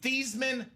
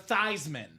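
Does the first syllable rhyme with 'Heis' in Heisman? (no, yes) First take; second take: no; yes. First: The first syllable does not rhyme with Heisman. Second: The first syllable rhymes with Heisman. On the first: This is the family's original pronunciation. "the pronunciation of your last name from Thiesman" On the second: This pronunciation was adopted for a publicity campaign. "to Theismann"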